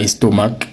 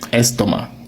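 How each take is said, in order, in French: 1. Le mot se termine par un son k. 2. Le mot se termine sans son k. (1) "c'est pas estomac" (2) "Donc le C ici, il ne sert à rien"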